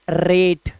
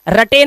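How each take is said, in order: First: रेट in one syllable, long 'ay'; रेट rhyming with 'gate'; correct reading. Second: रटे mis-read as 'ra-tay'; रटे in two literal syllables; wrong reading. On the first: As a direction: say रेट with silent final e. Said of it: "इसको पढ़ना है सिर्फ". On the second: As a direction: sound the final e in रटे. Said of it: "रटे नहीं पढ़ लेना है". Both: Shown as a demonstration.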